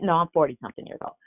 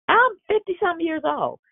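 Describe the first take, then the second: First: Said in the usual way. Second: Squeaky jokey aside about her age; mock shriek aside. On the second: Real, not acted. Preacher joking to the congregation about her age, squeaky. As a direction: toss it off in a high mock squeal.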